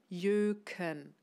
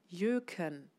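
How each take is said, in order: Both takes have the same delivery.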